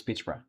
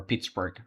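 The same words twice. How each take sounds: First: Pittsburgh with a soft "bruh" ending; Pittsburgh ending like Edinburgh; Pittsbruh pronunciation. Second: Pittsburgh with a hard g ending; Pittsburgh said softer and lower, final g sounded; Pittsburg pronunciation. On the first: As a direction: say the end of Pittsburgh as "bruh", no final g. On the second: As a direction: end Pittsburgh in "burg". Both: Shown as a demonstration. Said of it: "how you gonna say it".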